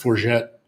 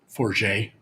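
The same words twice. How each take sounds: First: The name is pronounced the way Ontarians say it. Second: The name is pronounced the way Quebecers say it. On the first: "In Ontario, it's" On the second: "and in Quebec"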